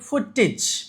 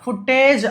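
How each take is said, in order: First: The last syllable has a short 'ih' vowel. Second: The last syllable has a long 'ay' vowel. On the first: The speaker calls it right. "ఇజ్ అని చదవాలి" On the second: The speaker calls it wrong. "ఫుటేజ్ అని అనకూడదండి"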